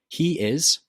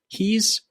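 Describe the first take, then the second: First: Two separate words are said in full. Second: The words join into one short syllable.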